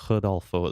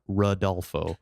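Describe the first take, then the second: First: The R is said like a soft H. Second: The name is said with an American R. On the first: "in Portuguese, it's more of like a Rodolfo. It's almost like a H sound of the R" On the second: "if I want to say it in the most American way possible"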